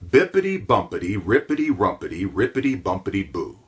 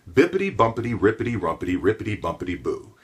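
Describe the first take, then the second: First: It is said slowly. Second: It is said faster.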